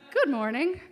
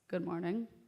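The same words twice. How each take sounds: First: It is said in a sweet voice. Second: It is said in a stern voice.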